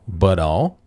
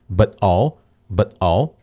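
First: The t is a quick flap linking the words. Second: The t is a stop that cuts the air. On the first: "que é o flap T" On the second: "Ou você pode fazer um stop T"

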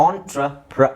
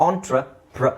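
The two takes are said the same way.

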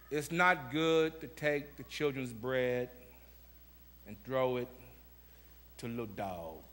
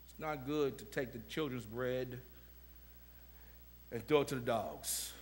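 First: It is read very slowly and dramatically. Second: It is read at a normal pace.

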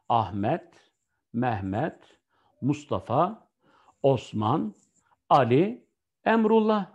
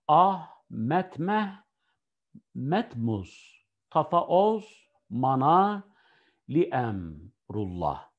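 First: Each name is said whole with pauses between. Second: The names are split and stressed at odd points. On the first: Each name stays one meaningful word. The speaker calls it right. "Doğrusu bu" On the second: The words come out as meaningless nonsense. The speaker calls it wrong. "Ne yaptın sen?"

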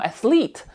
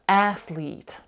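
First: The stress is on the second syllable. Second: The stress is on the first syllable. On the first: The speaker calls it wrong. "Ми не кажемо athlete" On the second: The speaker calls it right. "але ми кажемо athlete"

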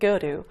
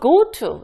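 First: It is said fast with a flapped t. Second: It is said slowly with a clear t.

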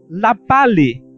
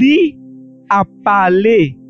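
First: The pronoun is shortened to a bare "l". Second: The pronoun is said fully as "li".

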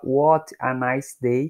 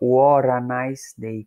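First: The t is a clear, separate t sound. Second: The t is a quick flap like r. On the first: "que seria a pronúncia mais pausada" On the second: "como se esse T fosse um Rzinho"

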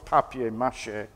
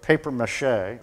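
First: The first word is said as 'papier'. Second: The first word is said like English 'paper'. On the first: The speaker calls it right. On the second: The speaker calls it wrong.

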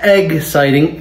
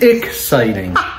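First: The word begins with an 'eg' sound. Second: The word begins with an 'ik' sound. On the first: The speaker calls it wrong. "Not egg-citing" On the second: The speaker calls it right. "Ick. I-K"

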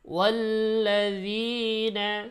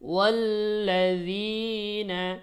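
First: The long vowel is held only briefly. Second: The long vowel is held only briefly.

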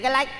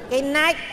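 First: The phrase is said quickly and slurred. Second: The phrase is said slowly and carefully. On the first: The speaker calls it wrong. "nói nhanh thì cái lách đấy" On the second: The speaker calls it right. "nói chậm tôi nói được"

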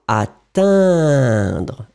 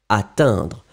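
First: The word is drawn out and lengthened. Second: The word is said at normal length. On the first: "On les fait plus longs, comme ça c'est plus clair" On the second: "Et après, vous réduisez"

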